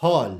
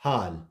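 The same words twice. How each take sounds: First: हॉल said with a rounded 'aw'; correct vowel. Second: हाल with a long open 'aa', low and soft; wrong vowel. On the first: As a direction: model हॉल with 'aw' in place of 'aa'. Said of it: "इसको हम पढ़ेंगे". (हॉल में 'ऑ' की गोल आवाज़) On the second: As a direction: say हाल with 'aa', as the mistaken reading. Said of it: "नहीं". (हाल में 'आ' की आवाज़) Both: Shown as a demonstration.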